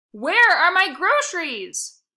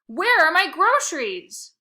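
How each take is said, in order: First: Shrieking, much louder and higher, slowed right down; screech. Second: Much louder, higher and slow, hammering each word; furious old woman demanding her bags; shrill demand. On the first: Missus Prince screeching at the bag boy, slow furious shriek. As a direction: screech it word by word in fury. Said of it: "she screeched". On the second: Missus Prince demanding her groceries, loud shrill slow fury. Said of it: "demanded Missus Prince". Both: Acted.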